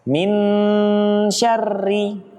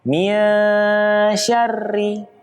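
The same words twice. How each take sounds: First: The n is pronounced fully and clearly. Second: The n is hidden and blurred into sh. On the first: The speaker calls it wrong. "Kalau tertempel dia menjadi jelas" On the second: The speaker calls it right.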